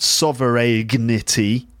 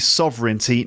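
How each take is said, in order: First: The word has a hard g sound. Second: The word has no hard g sound. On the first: The speaker calls it wrong. "not sovereignty" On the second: The speaker calls it right. "It's not pronounced, so it's actually sovereignty"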